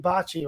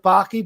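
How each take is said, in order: First: The name is said with Italian pronunciation. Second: The name is said to rhyme with hockey. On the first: This is how it should properly be said. "it really should be Bocce" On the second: This is how the family says it. "My family pronounces it Baki"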